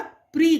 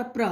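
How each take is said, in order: First: प्री said as "pree"; correct i-ending pronunciation. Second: प्र said as "pra", with an a sound; wrong a-ending pronunciation. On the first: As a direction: end प्री on a long "ee". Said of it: "correct उच्चारण है". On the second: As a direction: end प्र on "aa" instead of "ee". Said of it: "आप ये नहीं बोलेंगे". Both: Shown as a demonstration.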